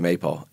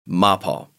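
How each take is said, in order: First: The name is said the common American way. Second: The name is said the original German way. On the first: This is how most people in the U.S. say it. "But most people here say MAPAL" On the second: This is the official pronunciation. "So the pronunciation would be MAPAL"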